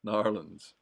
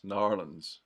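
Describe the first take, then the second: First: The name is squeezed into two quick syllables. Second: The name is squeezed into two quick syllables.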